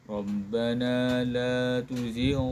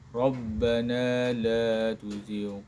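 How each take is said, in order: Both takes have the same delivery.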